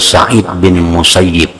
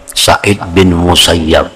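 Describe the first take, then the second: First: The last syllable of the name has an 'i' vowel. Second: The last syllable of the name has an 'a' vowel. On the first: The speaker calls it right. "Beliau lebih senang nah, dipanggil dengan Sa'id bin Musayyib" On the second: The speaker calls it wrong. "seringkali dibaca Musayyab"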